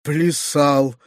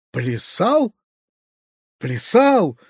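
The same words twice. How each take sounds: First: Horrified cry. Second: Restrained horrified echo, question then exclamation; horrified cry. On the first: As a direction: echo it aghast, without shouting. (приглушённый возглас ужаса) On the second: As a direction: echo it in horror, without much volume. (сдержанный возглас ужаса) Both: A narrator's reading. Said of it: "вскрикнул в ужасе дядя".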